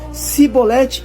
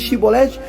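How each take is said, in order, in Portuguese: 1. A palavra começa com um som de s. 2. A palavra começa com um som de sh.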